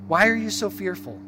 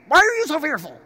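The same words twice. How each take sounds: First: The question sounds sad and heartbroken. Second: The question sounds harsh and scolding. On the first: He is heartbroken for his followers. "I read it like a dad who is so disheartened, so sad for his child" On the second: He is scolding his followers. "Maybe Jesus said it harshly. Maybe he was like"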